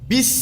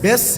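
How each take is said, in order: First: The vowel sounds like the i in bit. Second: The vowel sounds like the e in bet. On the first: The speaker calls it right. "বাজের বি, বিস" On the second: The speaker calls it wrong. "বেস না"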